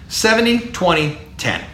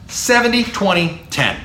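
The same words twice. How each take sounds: The two takes are said the same way.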